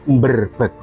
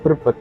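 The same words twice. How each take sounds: First: The word starts with a nasal before b. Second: The word starts plainly with a b sound. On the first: This is how local people say the name. "tapi Berbek" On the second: This is how the name is written. "bukan menyebutnya Kecamatan Berbek"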